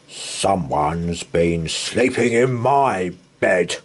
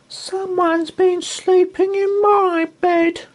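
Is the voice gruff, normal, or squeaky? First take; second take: gruff; squeaky. First: It is said in a gruff, grunting voice. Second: It is said in a tiny, squeaky voice.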